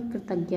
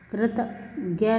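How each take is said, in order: First: Said in the usual way. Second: कृतज्ञ split as "krit ... gya"; mispronounced. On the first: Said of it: "होता है". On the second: Shown as a demonstration. Teacher showing students an error, कृतज्ञ mispronounced. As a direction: break up कृतज्ञ wrongly. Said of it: "नहीं होता".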